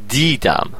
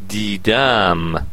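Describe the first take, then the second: First: The stress is on the first syllable. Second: The stress is on the second syllable. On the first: It is the simple past: I saw. "فشار رو دی هست" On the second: It is the present perfect: I have seen. "فشار رو دمه در قسمت دوم"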